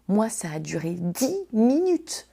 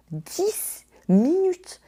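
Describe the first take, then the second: First: Said in the usual way. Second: Dix minutes drawn out very slowly, pitched much higher; exasperated, high and slow; stretched emphasis. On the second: Real, not acted. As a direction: drag out dix minutes in disbelief.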